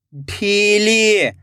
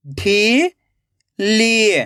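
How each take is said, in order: First: ढीली joined as one slow word; blended word. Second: ढीली split into ढी, long pause, ली; rising ढी, then falling ली; syllable by syllable. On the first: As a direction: read ढीली whole with drawn-out ई, falling at the end. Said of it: "खींच के पढ़ना है". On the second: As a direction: sound out ढीली very slowly in two parts. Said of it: "एक एक अक्षर का उच्चारण करना है". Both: Shown as a demonstration.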